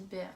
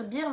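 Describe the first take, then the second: First: "bear" with an open air vowel, like the animal; "bear" said the English way, air sound; correct pronunciation. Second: "beer" said with a long ee, like the drink; the common wrong "beer", ee sound; mispronounced name. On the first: Correcting the shop name, "bear" like air. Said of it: "normalement B E A R, ça se dit bear". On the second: Quoting what others say, "beer" with ee. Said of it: "J'entends beaucoup de monde dire beer". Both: Shown as a demonstration.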